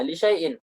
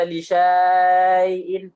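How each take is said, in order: First: Said in the usual way. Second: "li syai'in" with syai greatly stretched; slowly overdraw the middle of "li syai'in"; wrongly lengthened vowel. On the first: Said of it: "alif yang di tengah-tengahnya tidak dibaca". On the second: Shown as a demonstration. Teacher shows how not to read it, "li syai'in" with syaaa held long. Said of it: "bukan dibaca li syai'in".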